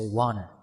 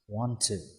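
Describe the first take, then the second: First: The words blend into one reduced form. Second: Both words are said fully and separately.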